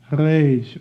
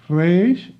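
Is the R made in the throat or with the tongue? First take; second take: throat; tongue. First: The R is made in the throat. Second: The R is rolled with the tongue tip. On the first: "the French uh, um, way to speak the R. ... you can say it by with your throat" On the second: "You can pronounce it as a Spanish speaker"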